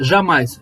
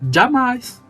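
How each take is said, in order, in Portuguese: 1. A palavra começa com um som suave de 'zh'. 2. A palavra começa com um som de 'dj'.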